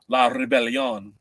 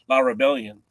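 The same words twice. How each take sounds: First: The name is said with a foreign accent. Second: The name is said in a plain English way.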